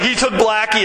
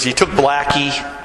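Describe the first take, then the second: First: Raised pitch, mock dismay; higher retold lament. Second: Said in the usual way. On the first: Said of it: "he's like". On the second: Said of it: "He goes".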